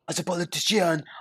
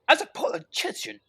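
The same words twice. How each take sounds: First: It sounds like a French accent. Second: It sounds like a British accent.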